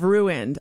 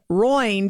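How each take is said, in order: First: Said in the usual way. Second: Roined as one syllable, "ROYND"; spouse's mispronunciation. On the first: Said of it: "instead of". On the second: Retold or imitated. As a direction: say ruined as "Roined", rhyming with joined. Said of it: "Rachel says".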